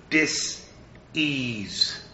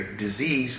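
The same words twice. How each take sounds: First: "Dis-ease" with a clear pause between "Dis" and "ease"; "Dis-ease" said slowly, each half stressed; "Dis-ease" broken apart to show what it means; split into two parts. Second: Said in the usual way. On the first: Shown as a demonstration.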